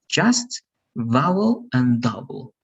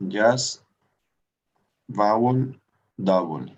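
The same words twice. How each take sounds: First: Teacher models each word slowly, rising on each; slow model pronunciation. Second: Student repeats Just, vowel, double after the teacher. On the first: Shown as a demonstration. Teacher modelling words for student to repeat, careful and clear. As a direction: say Just, vowel, double as a model for the student. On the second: Real, not acted. Student echoing the teacher's model words, careful. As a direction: echo the teacher's words a little hesitantly. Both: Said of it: "let's repeat those three words".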